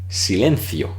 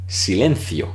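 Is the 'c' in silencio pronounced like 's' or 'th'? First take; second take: th; th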